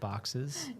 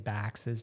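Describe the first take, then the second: First: The vowel is open and back, like 'o'. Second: The vowel is fronted, like 'a' in 'bag'. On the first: This is the speaker's usual way of saying it. "instead of boxes" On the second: The speaker has picked up a new regional habit. "I'm starting to say baxes now"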